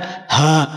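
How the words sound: A heavy forced h vibrating from the chest. The speaker calls it wrong. "bukan ha, ha, ha ... berat bacaannya"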